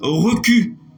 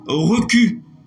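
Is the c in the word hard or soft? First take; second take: hard; hard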